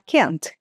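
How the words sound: The vowel is short, as in American English. "Com a letra A mais curta"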